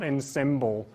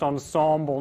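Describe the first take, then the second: First: The first vowel sounds like 'eh'. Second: The first vowel sounds like 'oh'. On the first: The speaker calls it wrong. "not en not ensemble" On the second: The speaker calls it right. "we pronounce the E's as if they were O's. It's pronounced ensemble"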